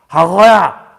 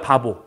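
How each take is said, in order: First: The b sounds are blurred, lips kept apart. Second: The b sounds are crisp, made with closed lips. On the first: The speaker calls it wrong. "입술 띄는 상태에서. ... 안 되죠?" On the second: The speaker calls it right. "바보 해봐요"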